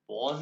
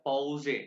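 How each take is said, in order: First: The word ends on the s sound. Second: The word ends with an extra e vowel. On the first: This is the English word. "English में पॉज है" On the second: This is the German word. "ये ई को ए कहते हैं। ये जर्मन में हो गया पॉजे"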